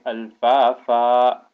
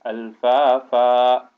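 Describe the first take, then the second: First: The word ends with a long vowel. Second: The word ends with a long vowel.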